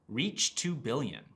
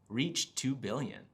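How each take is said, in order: The two takes are said the same way.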